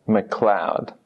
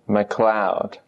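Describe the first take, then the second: The two takes are said the same way.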